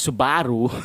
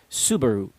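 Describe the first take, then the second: First: The stress falls on the middle syllable. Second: The middle syllable carries no stress. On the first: The speaker calls it wrong. "place an emphasis on the B um, syllable in the middle" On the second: The speaker calls it right. "get rid of the stress in the middle of the word"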